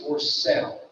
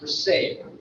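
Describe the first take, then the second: First: Sale is said the local dialect way. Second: Sale is said the standard way. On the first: "it was always for sale" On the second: "not for sale"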